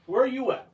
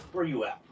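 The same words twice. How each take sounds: First: High sing-song calling out. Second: Muttering very softly to self; muttered. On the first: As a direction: call it playfully up high. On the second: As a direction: mutter it under your breath. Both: Real, not acted. Hunting for the knife.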